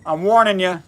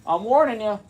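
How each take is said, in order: First: Said in the usual way. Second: A lightly voiced spooky warning, higher; mock ominous warning. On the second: Host teasing live viewers before the camera flips, mock ominous. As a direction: tease the viewers with a playful threat.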